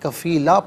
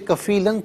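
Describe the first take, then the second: First: The word ends in a long a, no n. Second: The word ends with a final n sound. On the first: "वफ़ की सूरत में कफ़ीला पढ़ा जाएगा" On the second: "इसे कफ़ीलन पढ़ेंगे"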